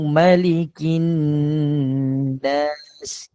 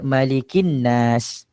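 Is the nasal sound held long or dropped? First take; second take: held long; dropped. First: The nasal sound before nas is held for two beats. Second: The nasal sound before nas is not held. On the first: The speaker calls it right. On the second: The speaker calls it wrong.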